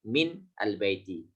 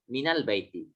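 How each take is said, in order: First: The n of min has no following vowel. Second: The n of min is followed by a. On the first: This is the underlying form before the rule applies. The speaker calls it wrong. "Aslinya min" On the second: The vowel is added to make it easy to pronounce. The speaker calls it right. "dimudahkan dengan difathahkan huruf nunnya menjadi minal baiti"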